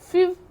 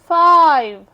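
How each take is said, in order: First: The vowel is a short 'i' sound. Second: The vowel is a long 'eye' sound. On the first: The speaker calls it wrong. "इसको फिव पढ़ सकते थे" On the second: The speaker calls it right. "यहाँ पे ई आ गया तो हम इसको लॉन्ग साउंड देंगे"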